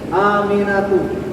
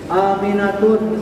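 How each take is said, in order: First: The name ends in a vowel with no final n. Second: The name ends with a final n sound. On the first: The speaker calls it right. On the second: The speaker calls it wrong.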